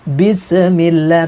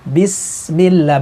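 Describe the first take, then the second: First: The s is followed by an added bouncing vowel. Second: The s is held clearly without an added bounce. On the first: The speaker calls it wrong. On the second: The speaker calls it right. "harus jelas sinnya"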